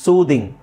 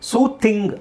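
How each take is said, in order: First: The th sound is voiced, like this. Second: The th sound is voiceless, like thin. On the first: The speaker calls it right. "ಇಲ್ಲೆಲ್ಲ ನಾವು ದನ use ಮಾಡಬೇಕು" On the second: The speaker calls it wrong. "ಸೂಥಿಂಗ್ ಅಲ್ಲ"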